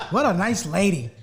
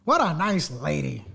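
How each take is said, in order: First: Sarcastic "what a nice lady"; mock admiration, said at normal pace; sarcastic praise. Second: Slow, dripping sarcasm; drawn-out sarcastic praise. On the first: Co-host mocking the friend's woman, sarcastic. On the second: Co-host repeating the mock compliment, slow and sarcastic. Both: Real, not acted.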